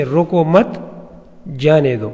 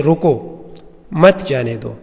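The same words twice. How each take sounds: First: "رکو، مت" together, long pause, then "جانے دو"; stop, don't, then let him go; pause after mat. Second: Stop, then don't let him go; pause after rukko. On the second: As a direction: pause after "رکو،", then "مت جانے دو" run together. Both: Shown as a demonstration. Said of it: "یہ وقفہ ہم نے ایک لفظ آگے پیچھے کیا".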